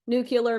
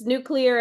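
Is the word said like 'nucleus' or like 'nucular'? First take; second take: nucular; nucleus. First: The word is said with a 'cu' in the middle. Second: The word is said like 'nucleus' plus 'ar'. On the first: The speaker calls it wrong. "makes you sound like somebody who doesn't know what they're talking about" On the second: The speaker calls it right. "having to do with nucleus"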